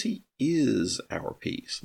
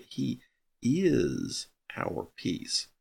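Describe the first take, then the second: First: Said in the usual way. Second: "is" drawn out very slowly and weighted in "He is our peace"; stress on is. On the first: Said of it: "Now notice it says". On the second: Shown as a demonstration. Teacher driving home the verb against the other wordings. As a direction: lean hard on "is" in "He is our peace", stretching it.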